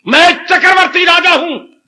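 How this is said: It is said with strong feeling.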